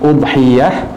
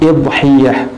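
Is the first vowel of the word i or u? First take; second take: u; i. First: The word begins with an u vowel. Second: The word begins with an i vowel. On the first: "mendommah huruf hamzahnya" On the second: "atau mengkasrahnya"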